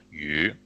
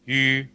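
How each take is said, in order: First: YU starting lower and going up; second tone. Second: YU held high and level; first tone. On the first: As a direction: lift YU gently from a lower start. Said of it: "Second one?". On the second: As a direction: keep YU up high without moving. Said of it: "what is the first one?". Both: Shown as a demonstration.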